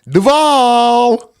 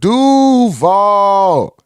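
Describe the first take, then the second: First: The stress is on the second syllable. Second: The stress is on the first syllable. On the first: It sounds like an outsider saying it. The speaker calls it wrong. "I used to sound like" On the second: It sounds like a local saying it. The speaker calls it right. "you got to put the emphasis on that U"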